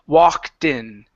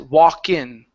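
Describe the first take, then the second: First: The T sound links into in. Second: The T sound before in is dropped. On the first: The speaker calls it right. "with the T, connect that T to the word in" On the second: The speaker calls it wrong. "you're skipping the T sound and you're moving right to the N"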